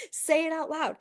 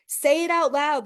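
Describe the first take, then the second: First: Said in the usual way. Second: Louder command. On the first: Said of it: "There's nobody here". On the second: Shown as a demonstration.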